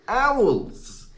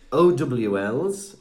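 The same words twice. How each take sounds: First: It is said as one word. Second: It is spelled out letter by letter.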